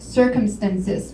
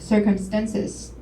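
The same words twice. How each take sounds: First: The stress is on the first syllable. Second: The stress is on a later syllable. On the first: The speaker calls it right. "The stress is on first syllable" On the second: The speaker calls it wrong. "but Taishan said circumstances"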